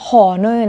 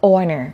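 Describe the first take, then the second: First: The word begins with an audible h sound. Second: The word begins with a vowel, h silent. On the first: The speaker calls it wrong. "อันนี้ไม่อ่านว่า" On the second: The speaker calls it right. "มันออกเสียงว่า"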